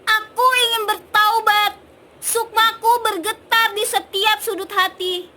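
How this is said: It sounds angry and loud.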